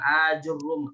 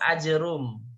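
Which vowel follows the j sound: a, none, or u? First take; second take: u; none. First: Long first vowel, u after j, doubled r. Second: Short first vowel, no vowel after j, single r. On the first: "hamzahnya dibaca mad, terus jimnya dibaca dhammah, ajrum, dan rohnya dibaca tasydid" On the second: "hamzanya tidak baca panjang, tapi dibaca pendek. Jimnya disukunkan, ro-nya dihilangkan tasydidnya"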